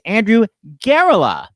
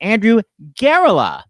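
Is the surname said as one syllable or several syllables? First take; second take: several syllables; several syllables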